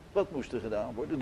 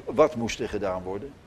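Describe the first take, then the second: First: Much softer and a little quicker; quiet repeat. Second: Said in the usual way. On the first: Shown as a demonstration. Preacher repeating his question softly to the congregation. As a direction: drop it to a soft, hurried aside.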